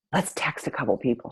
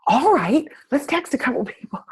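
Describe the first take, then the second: First: Said in the usual way. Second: High, breathless whispery squeal; hammed-up squeaky excitement with a laugh; really excited. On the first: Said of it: "And then I said". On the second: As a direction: imitate a friend giddily agreeing. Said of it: "she gets really excited".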